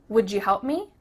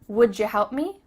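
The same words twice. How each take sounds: The two takes are said the same way.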